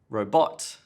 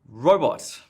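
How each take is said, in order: First: The stress is on the second syllable. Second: Both syllables are stressed evenly. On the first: "stress in the wrong place" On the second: "too much stress, too even"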